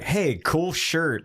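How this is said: It is said in a leering, suggestive way.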